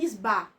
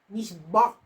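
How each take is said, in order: First: The vowel is plain and open, without throat sound. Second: The vowel is guttural, echoing in the throat. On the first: He lied. The speaker calls it wrong. "ao invés de eu dizer Nisba" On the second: He swore. The speaker calls it right. "Eu tento dizer assim para fazer tipo um eco na minha garganta"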